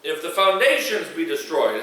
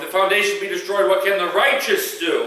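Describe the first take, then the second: First: The word foundations carries the stress. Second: The word righteous carries the stress.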